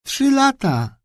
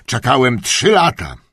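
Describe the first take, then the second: First: Put-on girl obediently echoing grandpa. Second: Raised, boastful trzy lata falling on lata; proud old duke. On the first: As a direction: repeat it dutifully like an echo. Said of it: "powtórzyła jak echo Priscilla". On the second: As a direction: brag about the long wait. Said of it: "kontynuował". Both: A narrator's reading.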